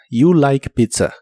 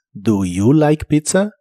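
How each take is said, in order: First: "You like pizza" said slowly, falling at the end like a statement. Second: "Do you like pizza?" said slowly, rising on "pizza"; question tone. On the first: Teacher giving learners the statement, spoken slowly. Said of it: "para la afirmación dices". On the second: Teacher modelling the question form for learners, slow with a rise. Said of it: "también usando el tono de pregunta". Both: Shown as a demonstration.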